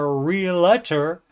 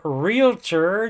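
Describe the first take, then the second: First: The word has an extra vowel after the L. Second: The word has no extra vowel after the L. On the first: The speaker calls it wrong. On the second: The speaker calls it right.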